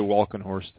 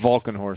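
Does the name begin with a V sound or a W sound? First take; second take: W sound; V sound. First: The name begins with a W sound. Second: The name begins with a V sound. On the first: The speaker calls it wrong. "Don't say Valkenhorst" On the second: The speaker calls it right. "it's a V"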